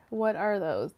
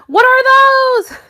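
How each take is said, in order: First: Said in the usual way. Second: High, loud meme-style yell; mock shout. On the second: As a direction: holler it in mock outrage. Meme line shouted after plain take.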